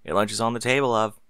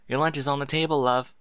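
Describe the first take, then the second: First: Said in the usual way. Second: Higher, teasing sweet coo; mock coo. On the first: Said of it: "husband's line". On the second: A narrator's reading. Wife teasing her husband by echoing him, cooing. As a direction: tease him by cooing his words back. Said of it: "Mary cooed jokingly".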